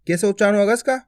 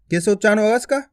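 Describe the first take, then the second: No difference in how they are said.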